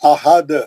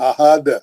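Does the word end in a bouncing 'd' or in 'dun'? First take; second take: bouncing d; bouncing d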